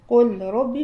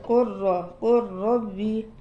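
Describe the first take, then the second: First: The L sound is pronounced separately before R. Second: The L merges into a doubled R sound.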